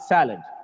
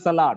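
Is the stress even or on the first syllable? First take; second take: first syllable; even. First: The first syllable is louder and longer. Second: Both syllables get equal stress and vowel. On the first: The speaker calls it right. "it's salad. Just because of the stress on the first syllable" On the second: The speaker calls it wrong. "It's not salad"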